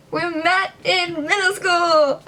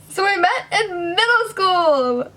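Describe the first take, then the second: First: High, slow, loud repeat; awkward exclaim. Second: High, loud blurt; awkward exclaim. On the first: Repeating her intro to viewers, a high awkward exclaim. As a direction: announce it again, overdoing it. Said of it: "Gosh, I'm so awkward". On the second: Vlogger restarting her intro, a loud awkward blurt. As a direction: blurt it out brightly, a bit too much. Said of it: "Did I already say that?". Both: Real, not acted.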